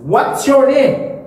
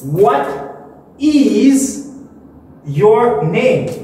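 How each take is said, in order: First: "What is" is contracted into one syllable. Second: "What is" is said as two full words. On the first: "il faut contracter" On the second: "ça c'est bien prononcé"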